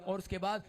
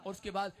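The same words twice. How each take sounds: The two takes are said the same way.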